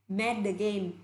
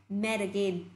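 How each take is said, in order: Both takes have the same delivery.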